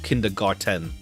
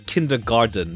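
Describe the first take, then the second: First: The last part sounds like 'garten', with a t. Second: The last part sounds like 'garden', with a d. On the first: This is the actual form of the word. The speaker calls it right. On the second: This is how the speaker used to think it went. The speaker calls it wrong. "I always thought it was"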